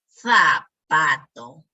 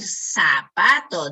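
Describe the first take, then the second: First: The first sound is a lisped th. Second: The first sound is a hissing s. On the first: The speaker calls it right. "deberíamos decir" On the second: The speaker calls it wrong. "en vez de decir"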